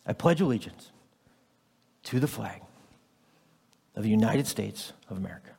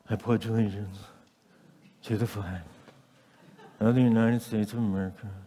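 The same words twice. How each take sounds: First: It is said firmly, with strong feeling and conviction. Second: It is said flatly, without feeling or conviction. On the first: The words are said as a sincere commitment. The speaker calls it right. "with conviction. Like you mean it" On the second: The words are said without really meaning them. The speaker calls it wrong. "That lacks something"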